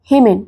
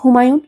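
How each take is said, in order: First: The name is clipped and sounds like Hemen. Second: The name is said in full as Humayun. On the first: The speaker calls it wrong. "হলো না" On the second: The speaker calls it right. "আবার বলো হুমায়ুন"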